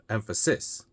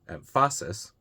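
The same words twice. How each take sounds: First: The stress is on the third syllable. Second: The stress is on the second syllable. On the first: "the third one, ... closer. It's possible, but it's not how we would normally say it" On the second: "The second one, ... obviously wrong"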